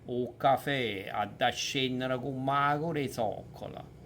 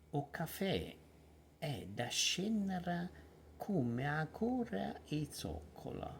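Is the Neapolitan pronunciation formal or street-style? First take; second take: street; formal. First: It is said in casual street Neapolitan. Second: It is said in formal, theatrical Neapolitan. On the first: The speaker calls it wrong. "street Neapolitan" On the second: The speaker calls it right. "I try to respect uh, the traditional and uh, you know formal Neapolitan, the theatrical"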